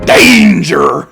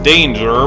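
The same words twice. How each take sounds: First: The word is shouted as an excited exclamation. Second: The word is said calmly and flatly. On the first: The speaker calls it right. "but rather" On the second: The speaker calls it wrong. "it's not actually supposed to be pronounced"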